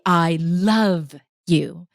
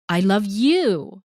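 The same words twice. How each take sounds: First: The word love is drawn out longer. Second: The word you is drawn out longer. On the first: "so you're elongating either love or you" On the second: "it creates a totally different emotion"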